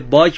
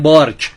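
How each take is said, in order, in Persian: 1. قبل از ک صدای ر نیست. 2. قبل از ک صدای ر هست.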